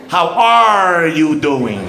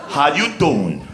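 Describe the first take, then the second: First: Slow, careful "How are you doing" with full R in "are"; pronounced R's. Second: Said in the usual way. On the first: Shown as a demonstration. Comic showing the Spokane way of saying hello, slow with R's. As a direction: say "are" fully, slowly.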